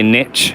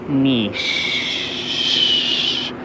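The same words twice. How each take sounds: First: The word is pronounced a non-French way. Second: The word is pronounced the French way. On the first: The speaker calls it wrong. "people they always say niche ... that's not how you say it" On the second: The speaker calls it right. "make sure you say niche, ... because it's a French word"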